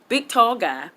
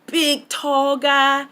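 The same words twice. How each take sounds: First: Said in the usual way. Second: Big, tall guy stretched slow and higher; slow emphatic. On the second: Real, not acted. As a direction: draw out Big and tall for size. Describing Big Show, repeated.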